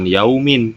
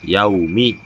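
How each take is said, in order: First: The word ends with an n sound. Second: The word ends with a plain vowel. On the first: The speaker calls it wrong. "bukan yaumin" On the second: The speaker calls it right. "tapi yaumi"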